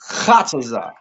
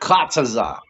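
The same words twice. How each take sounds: First: The word begins with a throaty, raspy h sound. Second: The word begins with a hard k sound. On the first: The speaker calls it right. "You gotta ha. You gotta bring it out from right here" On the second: The speaker calls it wrong.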